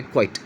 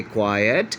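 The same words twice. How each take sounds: First: क्वाइट as a single beat, kwait; one-syllable क्वाइट. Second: क्वाइट split as kwai-et; two-syllable क्वाइट. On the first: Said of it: "एक one syllable word है". (क्वाइट एक ही syllable में) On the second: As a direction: say क्वाइट in two clear beats, rising on the second. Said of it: "एक two syllable word है". (क्वाइट दो syllable में: क्वाय-एट) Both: Shown as a demonstration.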